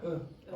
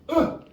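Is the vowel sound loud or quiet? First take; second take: quiet; loud. First: The vowel is said quietly and weakly. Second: The vowel is said loudly with effort. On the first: The speaker calls it right. "the volume is not high" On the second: The speaker calls it wrong. "You don't go"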